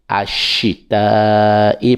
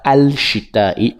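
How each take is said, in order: First: "ashita i", l silent and sh doubled; sun letter. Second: "al shita i" with the l sounded; wrong form. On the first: Teacher giving the correct reading, l assimilated. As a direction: drop the l into the "sh". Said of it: "mais on dit". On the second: Teacher showing the wrong reading, l pronounced. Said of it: "on dit pas". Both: Shown as a demonstration.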